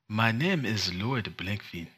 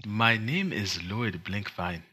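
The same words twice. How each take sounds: First: A light, slow mock Wakandan accent. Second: Slow mock Wakandan accent, second take. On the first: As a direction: slowly try the name in a Wakandan accent. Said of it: "let's try both in Wakandan". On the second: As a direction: deliver the name slowly in a Wakandan accent. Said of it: "proud of my Wakandan accent".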